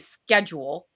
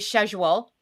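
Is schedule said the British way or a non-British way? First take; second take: non-British; British. First: It is pronounced a non-British way. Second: It is pronounced the British way. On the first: "I say schedule" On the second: "I know the Brits say schedule"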